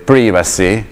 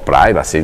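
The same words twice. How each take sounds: First: It is said with a British English pronunciation. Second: It is said with an American English pronunciation. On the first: "dipende se dovete pronunciarla in inglese" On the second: "o l'americana"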